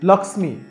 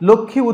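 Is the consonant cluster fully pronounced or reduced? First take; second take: fully pronounced; reduced. First: Each consonant in the cluster is pronounced separately. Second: The consonant cluster is simplified, Bengali style. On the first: The speaker calls it right. "সংস্কৃতে এটিকে আমাদের উচ্চারণ করতে হবে লক্ষ্মী" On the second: The speaker calls it wrong. "এটিকে আমরা আর লক্ষ্মী উচ্চারণ করতে পারছি না"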